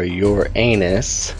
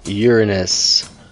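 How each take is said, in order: First: The stress is on the second syllable. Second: The stress is on the first syllable. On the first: "or your anus, depending on how you say it" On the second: "depending on how you say it"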